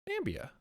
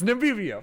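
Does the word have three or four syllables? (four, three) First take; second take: three; four. First: The word is said with three syllables, no vowel after m. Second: The word is said with four syllables, a vowel after m. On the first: The speaker calls it wrong. "I'm pronouncing this really wrong, aren't I?" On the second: The speaker calls it right. "It's Namibia"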